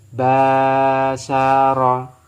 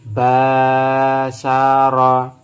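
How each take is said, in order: No difference in how they are said.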